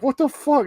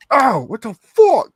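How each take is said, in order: First: High-pitched startled outburst; startled disbelief. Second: High, loud, drawn-out yelp; pained outburst. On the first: Wolverine waking to find what was done to him, startled disbelief. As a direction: react in sudden bewilderment. Wolverine reacts, first take. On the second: Wolverine tied to the wall with darts in him, pained outburst. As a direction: cry out as if just jabbed. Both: Acted.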